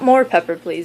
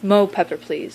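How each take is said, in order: First: The first word is said as full 'more'. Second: The first word is said as short 'mo'. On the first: The speaker calls it wrong. "it's not more pepper please" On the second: The speaker calls it right. "You have to say it like that"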